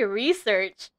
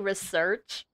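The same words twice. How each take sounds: First: The stress is on the first syllable. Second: The stress is on the second syllable. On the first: "I say research. Emphasis on the E" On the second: "did he just say research? People actually pronounce it like that?"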